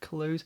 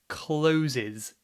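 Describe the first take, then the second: First: The word is said with one syllable. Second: The word is said with two syllables. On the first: The speaker calls it right. "this is one syllable" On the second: The speaker calls it wrong. "many people pronounce this incorrectly as two syllables"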